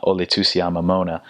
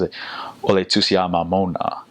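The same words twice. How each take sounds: First: Flat English vowels on "Ole Tusia Mamona"; anglicized Samoan; English accent. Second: Slow, open vowels on "Ole Tusia Mamona"; Samoan pronunciation. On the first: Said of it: "we'd try saying, not". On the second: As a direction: open the mouth wide on the A's and O's of "Ole Tusia Mamona". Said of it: "the correct way they say is". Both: Shown as a demonstration.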